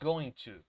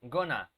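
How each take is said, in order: First: Both words are said fully and separately. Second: The words are reduced and run together. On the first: "They don't say going to" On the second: "they say gonna"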